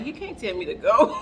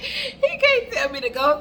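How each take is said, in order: First: Disbelieving thought with a chuckle underneath; inner voice, half laughing. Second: Higher, laughing it out in disbelief. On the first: Retold or imitated. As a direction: think it defiantly, a laugh rising. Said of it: "In my mind, I'm like". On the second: Real, not acted. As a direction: say it through real laughter. Repeated through laughter.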